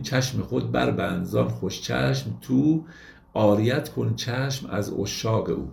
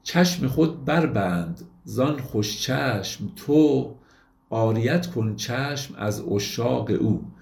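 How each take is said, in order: First: Slow recitation with تو said as "tu", rhyming with او "u"; Rumi's old pronunciation. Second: Slow recitation with تو said as modern "to", not rhyming with او; modern pronunciation. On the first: Lecturer shows how Rumi would have pronounced the couplet. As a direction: stretch تو into an old "tu" so it rhymes with او. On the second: Lecturer first reads the couplet in today's Persian pronunciation. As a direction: read the verse the way Persians say it today, تو as "to". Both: Shown as a demonstration.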